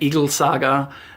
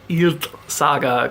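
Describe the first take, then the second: First: The name sounds like the English word eagle. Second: The name sounds close to the English word eat. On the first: The speaker calls it wrong. "turns out that's not how that's pronounced at, at all" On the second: The speaker calls it right. "his name is like Eat"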